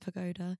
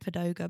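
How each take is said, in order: First: The second syllable starts with a g sound. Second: The second syllable starts with a d sound. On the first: The speaker calls it right. "but it's pagoda" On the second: The speaker calls it wrong. "I always pronounce pagoda"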